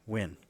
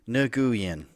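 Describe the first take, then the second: First: The name is said closer to Vietnamese pronunciation. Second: The name is said in an anglicized way. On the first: The speaker calls it right. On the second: The speaker calls it wrong.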